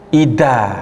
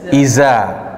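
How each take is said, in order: First: The middle consonant is a d sound. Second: The middle consonant is a buzzing z sound. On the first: "bisa tercampur dengan makhraj huruf dal" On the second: "Za menjadi huruf zai"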